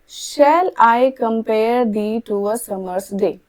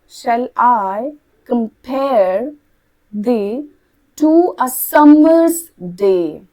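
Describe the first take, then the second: First: It is read plainly without a regular beat. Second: Weak and strong syllables alternate in a beat. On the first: The speaker calls it wrong. "Simple तरीके से आप ऐसे पढ़ते हैं" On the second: The speaker calls it right. "ऐसे पढ़ा जाता है"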